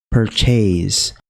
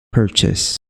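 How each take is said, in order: First: The last syllable has a long vowel. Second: The last syllable has a short vowel. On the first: The speaker calls it wrong. "jadi E-nya itu dibaca E dan panjang" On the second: The speaker calls it right. "di sini yang benar itu adalah purchase"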